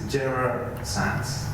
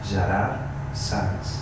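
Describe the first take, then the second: First: The name is pronounced the English way. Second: The name is pronounced the Catalan way. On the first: "In English is Gerard Sanz, more or less" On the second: "This is in Catalan"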